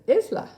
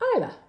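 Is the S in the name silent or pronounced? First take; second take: pronounced; silent. First: The S in the name is pronounced. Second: The S in the name is silent. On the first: This is how a friend of someone else says it. "but they pronounced it Isla" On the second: This is how the name's owner says it. "The S is silent in the word island, therefore, Isla"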